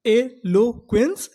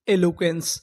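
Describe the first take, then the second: First: eloquence slowed and a bit louder; slow emphatic word. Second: Said in the usual way. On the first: Shown as a demonstration. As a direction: announce eloquence slowly to the class. (धीरे और ज़ोर से) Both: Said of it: "उन्हें हम लोग क्या बोलते हैं?".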